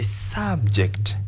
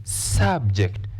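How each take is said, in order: The two takes are said the same way.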